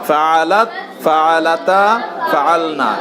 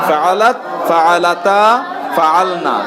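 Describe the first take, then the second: No difference in how they are said.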